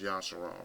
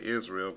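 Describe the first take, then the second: First: The name begins with a 'ya' sound. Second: The name begins with an 'iz' sound. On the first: The speaker calls it right. "It's Yasharal" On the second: The speaker calls it wrong. "they pronouncing it wrong"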